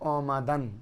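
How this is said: The first vowel is a rounded 'o' sound. This is the present-day pronunciation. "আর যদি এখন উচ্চারণ পড়ো অমাদান"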